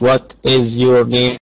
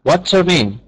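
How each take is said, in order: First: The words 'what is' are said in full. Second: The words 'what is' are contracted to 'what's'. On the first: The speaker calls it wrong. "مش what is your name" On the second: The speaker calls it right. "لا، what's your name"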